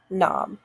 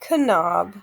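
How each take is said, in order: First: The word starts with a plain N sound. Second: The word starts with a sounded K. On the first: The speaker calls it right. "now that we know that that's a silent K, we know not to do that" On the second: The speaker calls it wrong. "you might be tempted to say knob"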